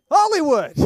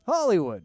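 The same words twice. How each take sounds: First: Loud, high, dramatic "Hollywood."; mock grand exclamation. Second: Said in the usual way. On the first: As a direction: announce "Hollywood." like a showman. Ironic exclamation, repeated plainly after.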